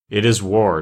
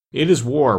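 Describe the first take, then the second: First: Firm declaration, a touch of fire; fiery declaration. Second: Higher-pitched retort, mildly savage. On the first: Ak declaring war on the king, restrained fire. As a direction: declare it with understated defiance. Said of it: "declared Ak with flashing eyes". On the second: King returning Ak's declaration of war, mildly savage. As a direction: throw it back with a touch of savagery. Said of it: "returned the king savagely". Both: A narrator's reading.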